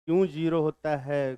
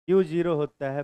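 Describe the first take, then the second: First: "क्यों zero होता है" as a light question; question mark intonation. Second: "क्यू zero होता है" closed as a statement; full-stop intonation. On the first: Teacher showing the unwanted question mark, "क्यों zero होता है" asked lightly. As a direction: ask "क्यों zero होता है", leaving it open. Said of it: "question mark नहीं". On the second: Teacher showing it ends in a full stop, "क्यू zero होता है" as fact. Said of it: "full stop". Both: Shown as a demonstration.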